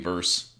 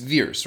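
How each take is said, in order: First: The vowel sounds like the one in 'purse'. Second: The vowel sounds like the one in 'fears'. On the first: This is how the name should technically be pronounced. The speaker calls it right. "it should be technically Verse" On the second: This is how the film pronounces the name. The speaker calls it wrong. "That's how they were pronouncing it"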